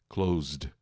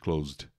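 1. É dita devagar, com cada som prolongado. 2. É dita rápido, como na fala do dia a dia.

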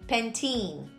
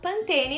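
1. O nome é dito com a pronúncia inglesa. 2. O nome é dito com a pronúncia do português brasileiro. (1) "lá fora, se você for comprar esse shampoo, saiba que a pronúncia é Pantene" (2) "Aqui no Brasil a gente fala Pantene mesmo"

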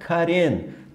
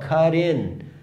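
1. Falado rapidamente, o t vira um tap suave, parecido com r. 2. O t é um som de t separado e claro.

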